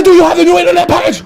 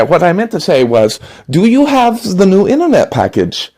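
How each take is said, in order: First: Put-on German accent, much higher, louder and fast, barking the question; angry German shout. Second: Polite German salesman, forced calm, pitched up; smooth it over in a German accent. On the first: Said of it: "I said". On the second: Acted. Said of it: "German door-to-door salesman".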